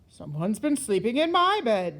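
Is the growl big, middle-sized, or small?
big. It is said with a great big growl.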